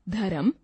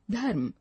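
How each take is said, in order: First: धर्म with an extra vowel, dharam; wrong pronunciation. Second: Said in the usual way. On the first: Shown as a demonstration. Teacher reading the wrong form, extra vowel. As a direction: split धर्म into dha-ram. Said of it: "अशुद्ध शब्द". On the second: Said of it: "शुद्ध शब्द".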